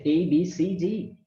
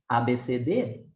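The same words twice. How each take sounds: First: The letters are named with English sounds. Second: The letters are named with Portuguese sounds.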